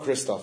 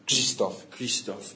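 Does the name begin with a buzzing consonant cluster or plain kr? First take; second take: plain kr; buzzing cluster. First: The opening is a plain kr sound. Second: The opening kr carries a buzzing zh sound. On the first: The speaker calls it wrong. "it's not Krzysztof" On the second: The speaker calls it right. "it's... Krzysztof"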